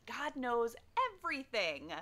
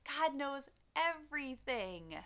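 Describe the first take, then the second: First: Said in the usual way. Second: Slow, hushed and reverent. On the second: Shown as a demonstration. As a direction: let each word land with awe.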